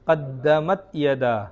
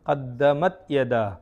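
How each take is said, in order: The two takes are said the same way.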